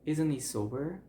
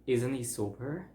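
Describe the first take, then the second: First: The h drops and 'isn't' links into 'he'. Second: The same.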